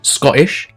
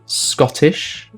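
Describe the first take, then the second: First: The middle T sound is dropped. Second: The middle T sound is clearly pronounced.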